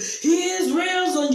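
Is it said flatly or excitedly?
excitedly. It is said excitedly, like preaching.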